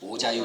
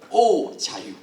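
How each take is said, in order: First: It is said flatly, without exclamation. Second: It is said as an excited exclamation. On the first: The speaker calls it wrong. "아니고" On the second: The speaker calls it right. "감탄하는 맛이 있어야 됩니다"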